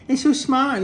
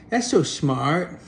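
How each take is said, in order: First: "so" pitched much higher with a falling tune; high mock awe. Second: "so" drawn out slowly with a rising tune; slow mock awe. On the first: The cat mocks the dog in a high squeaky voice. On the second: The cat mocks the dog, slow and sarcastic. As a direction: marvel sarcastically at "so". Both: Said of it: "dumb creature going".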